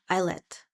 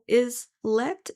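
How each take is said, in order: First: The first syllable sounds like the word 'isle'. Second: The first syllable sounds like the word 'is'. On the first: "Or is it Isle Islet?" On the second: "is let is that's how I'm pronouncing it"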